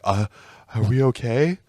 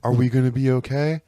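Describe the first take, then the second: First: Put-on timid little kid voice, small and unsure; mock a scared ten-year-old asking for reassurance. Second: Put-on meek, worried child voice with rising end; mock a kid after getting yelled at; scared kid. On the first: Becky Lynch as a scolded kid, meek and worried. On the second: Becky Lynch like a scolded ten-year-old, timid. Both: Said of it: "a fucking ten-year-old who got yelled at".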